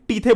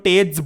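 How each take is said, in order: First: It sounds like 'tee-the', with a th sound. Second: It sounds like 'tayj', ending in a j sound. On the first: This pronunciation helps to remember the spelling. "But तुम टीथे बोल सकते हो उसको" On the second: This is the standard dictionary pronunciation. "इसको टेज बोलते हैं"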